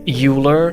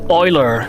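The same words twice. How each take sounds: First: The word begins with a 'you' sound. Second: The word begins with an 'oy' sound. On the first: The speaker calls it wrong. "when you pronounce it the way it's spelled" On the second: The speaker calls it right. "We need we need some Oilers in chat"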